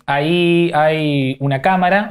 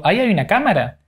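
First: Slow rising question on "cámara"; questioning rise. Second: Falling statement, stress on "hay". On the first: Interviewer demonstrating, slow rising question. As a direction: ask "Ahí hay una cámara" with "cámara" rising. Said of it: "en una yo te afirmé algo y en la otra te lo pregunté". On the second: Interviewer demonstrating, falling statement. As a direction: state "Ahí hay una cámara" with "hay" falling. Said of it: "en una yo te afirmé algo". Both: Shown as a demonstration.

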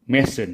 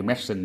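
First: Medicine said the English way, two syllables, MED-sin; standard medicine. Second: Medicine read out as spelled, three syllables, ME-DI-CINE; spelling pronunciation. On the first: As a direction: say Medicine as MED-sin, the natural spoken form. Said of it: "nghe người ta đọc là medicine". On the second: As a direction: sound out medicine letter by letter as ME-DI-CINE to remember the spelling. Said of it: "các em cứ đọc là medicine, đọc cho nó dễ nhớ". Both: Shown as a demonstration.

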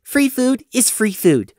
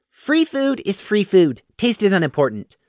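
First: Slow, higher, firm final verdict; "Free food is free food" said slowly as a final word; solemn finality. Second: Talking through a mouthful of food; mouth full. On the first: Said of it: "with solemn finality". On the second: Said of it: "said with his mouth full". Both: Acted.

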